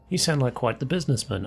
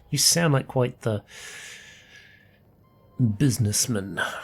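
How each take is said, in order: First: The line is said in a plain, neutral tone. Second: The line is said in a scornful, contemptuous tone.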